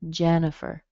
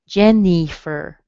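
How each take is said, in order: First: The second vowel is a weak, reduced schwa sound. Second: The second vowel is a clear, full 'i' sound. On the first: The speaker calls it right. "It sounds like a schwa" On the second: The speaker calls it wrong. "tempted to see that I in there and say, Jennifer. It doesn't sound like that"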